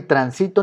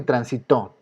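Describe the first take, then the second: First: Transito stressed on SI; stress on middle syllable. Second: Transitó stressed on final TÓ; stress on last syllable. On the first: Teacher contrasts transito for students, middle syllable stressed. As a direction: put the weight mid-word in transito. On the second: Teacher contrasts transitó for students, last syllable stressed. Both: Shown as a demonstration. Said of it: "no es ni transito ni transitó".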